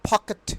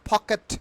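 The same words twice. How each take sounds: First: The first p sound is strongly aspirated. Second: The same.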